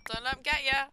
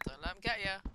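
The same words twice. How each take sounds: First: Louder and higher, urging herself on; hype-up yell. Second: Said in the usual way. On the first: Real, not acted. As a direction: shout the warning at yourself. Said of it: "Don't let 'em get ya". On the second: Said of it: "Don't let 'em get ya!".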